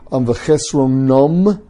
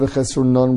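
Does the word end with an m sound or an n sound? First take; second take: m; n. First: The word ends with an m sound. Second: The word ends with an n sound. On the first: "he says v'chesronum instead of" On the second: "with a nun"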